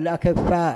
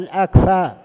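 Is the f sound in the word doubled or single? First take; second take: doubled; single. First: The f sound is doubled after a short vowel. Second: The f sound is single, right after k. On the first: Blind people who cannot see. The speaker calls it wrong. "بعض من الناس يقولون الأكفاء، هذا خطأ" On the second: Competent, capable people. The speaker calls it right. "وإنما هو الأكفاء"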